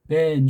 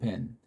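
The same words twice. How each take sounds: First: The vowel is drawn out longer. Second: The vowel is said short. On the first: "좀 긴 듯하게" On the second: "짧은 애 정도라고 친다면은"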